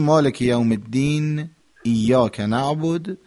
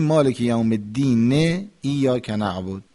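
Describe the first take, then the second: First: Verse stop at الدین, no final vowel; pause between verses. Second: الدین said as "ed-dine", leading on to ایاک; final vowel sounded. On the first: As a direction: stop on الدین with a closed "n", then ایاک. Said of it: "یا یه مکسی بکنیم که وقف بشه". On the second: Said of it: "این حرکات آخر رو". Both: Shown as a demonstration.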